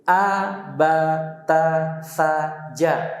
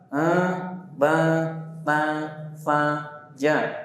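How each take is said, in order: First: The syllables are spoken clearly, without nasality. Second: The syllables are spoken through the nose. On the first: The speaker calls it right. "Itu yang pertama" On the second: The speaker calls it wrong. "Masuk ke hidung"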